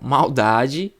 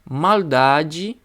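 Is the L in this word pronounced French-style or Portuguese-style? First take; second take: Portuguese-style; French-style. First: The L is pronounced the Portuguese way. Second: The L is pronounced the French way. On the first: The speaker calls it right. "português agora" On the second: The speaker calls it wrong. "Eu falei esse L com, com a pronúncia francesa"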